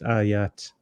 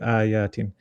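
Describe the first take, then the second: First: The word ends abruptly on a bare t. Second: The word ends with an added -in sound. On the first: The reading stops on this word. "And you stop, it's ayat with a sukun" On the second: The reading continues without stopping. "If you say it uh, carrying on, you'll say ayatin"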